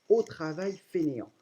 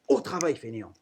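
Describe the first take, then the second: First: It is read calmly and plainly. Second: It is shouted in an angry voice.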